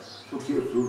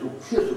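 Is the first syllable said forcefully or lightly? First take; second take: lightly; forceful. First: The first syllable is said lightly, without force. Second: The first syllable is said with extra force. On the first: The speaker calls it right. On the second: The speaker calls it wrong.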